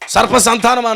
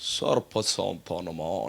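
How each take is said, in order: First: The phrase is said bluntly and plainly. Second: The phrase is said in a softened, affected way. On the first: The speaker talks straightforwardly without pretence. The speaker calls it right. "నాలుగు మడతలు లేవు" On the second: The speaker puts on a trained, overly polished manner. The speaker calls it wrong. "నాలుగు మడత మడుతున్నవాడు"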